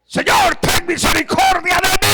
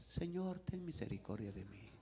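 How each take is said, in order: First: Full-throated shout. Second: Very soft, timid murmur; meek soft plea. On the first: Bartimeo screaming to Jesus for mercy, full force. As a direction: scream the plea, stretching the end. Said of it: "gritaba como hombre". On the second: How Bartimeo did not beg Jesus, meek and hushed. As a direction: say it far too quietly to be heard. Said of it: "Pero no le decía". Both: Acted.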